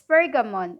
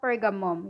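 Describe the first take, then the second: First: The name ends with an "-on" sound. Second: The name ends with an "-um" sound. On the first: The speaker calls it right. "For it's Pergamon" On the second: The speaker calls it wrong. "it's not Pergamum, ... Pergamum is blasphemy"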